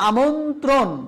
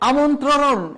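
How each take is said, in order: The two takes are said the same way.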